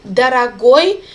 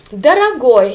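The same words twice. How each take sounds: First: Дорогой with the final ой said louder; stressed ending shown. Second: Дорогой with its ending ой punched loud, falling; stressed ending shown. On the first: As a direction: lean on the end of Дорогой. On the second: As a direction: hit the last syllable of Дорогой. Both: Shown as a demonstration. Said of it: "here you can see the stressed endings".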